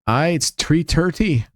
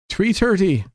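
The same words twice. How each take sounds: First: Slow, practised Irish brogue; Irish accent. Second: Said in the usual way. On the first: Pretend. Answering Brent's question in a practised Irish accent. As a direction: try out an Irish lilt, taking your time. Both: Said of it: "I've been working on my Irish accent".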